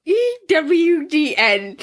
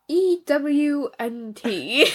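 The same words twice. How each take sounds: First: A slightly higher, slow correction of the letters; slow corrected letters. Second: Letters spelled slowly, one at a time. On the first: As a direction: spell the letters out slowly, correcting. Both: Shown as a demonstration. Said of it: "I said that wrong".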